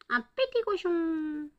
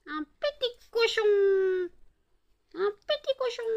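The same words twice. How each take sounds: First: Voix aiguë de petit cochon. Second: Voix de cochonnet suraiguë; petit cochon très aigu. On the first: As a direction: imite un petit cochon, en traînant. Imite le petit cochon grognant. (voix de petit cochon aiguë et lente) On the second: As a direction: couine comme un petit cochon. Imite le petit cochon, plus aigu. (voix suraiguë de petit cochon) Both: Pretend.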